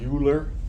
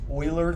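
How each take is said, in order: First: The name is said with an English pronunciation. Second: The name is said with a German pronunciation. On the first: The speaker calls it wrong. "Don't say Euler. You will sound foolish" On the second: The speaker calls it right. "This person's name is pronounced Euler. This is a German name"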